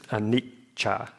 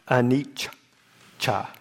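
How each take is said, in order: First: The middle consonant is held as a double. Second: The middle consonant is heavily drawn out. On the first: "because of the double C" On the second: "if you were to really, overstress it"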